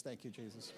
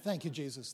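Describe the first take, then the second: First: Softer and lower, almost to himself; hushed thanks. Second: Said in the usual way. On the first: Real, not acted. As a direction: murmur it as a private prayer. Repeated thanks, second hushed.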